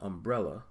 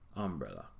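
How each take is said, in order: First: The word begins with an 'um' sound. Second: The word begins with an 'ah' sound.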